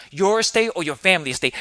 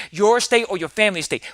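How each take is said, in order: First: "estate" leaned on at the end; stress on estate. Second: "your" punched higher at the start; stress on your. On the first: Asking listeners to weigh the words, stress on estate. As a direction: let "estate" take the weight. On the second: Contrasting for listeners, stress on your. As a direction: hit the word "your". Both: Shown as a demonstration. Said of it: "How does that sound?".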